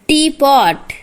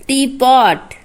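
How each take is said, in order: Both takes have the same delivery.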